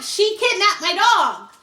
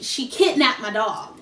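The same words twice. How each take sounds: First: High, drawn-out mock outrage; indignant complaint. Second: Said in the usual way. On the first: Calling the police about the stolen dog, indignant. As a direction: act out an aggrieved report, pitched up.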